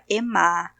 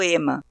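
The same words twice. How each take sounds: First: The name is pronounced with French sounds. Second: The name is pronounced with Brazilian Portuguese sounds. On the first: "a pronúncia mais adequada, considerando o francês" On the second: "eu vou abrasileirar"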